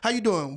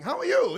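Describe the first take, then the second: First: The greeting sounds curt and irritated. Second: The greeting sounds warm and friendly.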